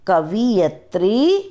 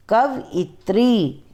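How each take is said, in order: First: कवियत्री slow, वि before य; wrong form. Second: कवयित्री slow, य then यि; correct pronunciation. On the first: Teacher shows students the classic mistake, swapped vowel. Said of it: "पहले हम आपको अशुद्ध वर्ण बताएंगे". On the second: Teacher gives students the correct order, slow and clear. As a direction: say कवयित्री as क-व-यि-त्री, carefully. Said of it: "फिर हम शुद्ध उच्चारण करके बताएंगे". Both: Shown as a demonstration.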